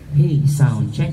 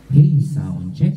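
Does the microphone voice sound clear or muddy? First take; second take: clear; muddy. First: The voice sounds clearer with less bass. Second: The voice sounds muddy with too much bass. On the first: The speaker calls it right. "Mas umokay-okay na" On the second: The speaker calls it wrong. "Kasi masyadong malabo ngayon"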